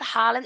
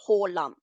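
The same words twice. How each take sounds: First: The first vowel sounds like an a. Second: The first vowel sounds like an o. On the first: The speaker calls it wrong. "it's not Haaland" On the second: The speaker calls it right. "it's Haaland"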